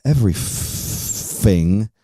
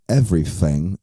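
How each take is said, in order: First: "Everything" drawn out slowly with an F for the th, London style. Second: London accent. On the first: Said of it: "with an F". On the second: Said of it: "if you're from London, you say "everything" with an F". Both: Shown as a demonstration.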